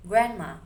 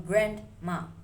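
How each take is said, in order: First: Grandma said as granma, the D dropped and N blended toward M; assimilated grandma. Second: Grandma slowly with every sound, the D clearly said; full careful grandma. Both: Shown as a demonstration. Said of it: "from grandma".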